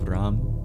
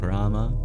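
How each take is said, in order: First: The word ends on a consonant, no final vowel. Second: The word ends with a short final vowel. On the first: This is the Hindi form. "with the schwas deleted" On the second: This is the older Sanskrit form. "Sanskrit used to pronounce the schwas"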